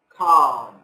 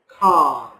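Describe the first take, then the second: First: The L sound is silent in the word. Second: The same.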